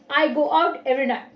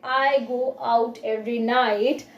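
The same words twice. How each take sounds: First: The T sounds are dropped. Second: The T sounds are clearly pronounced. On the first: "by cutting off T from the sentence" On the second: "instead of saying it like"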